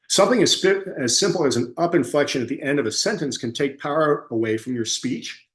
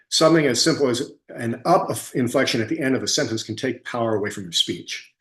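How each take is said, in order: First: The voice rises at the end of the sentence. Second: The voice falls at the end of the sentence. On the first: The speaker sounds uncommitted, as if asking a question. The speaker calls it wrong. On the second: The speaker sounds committed to the statement. The speaker calls it right.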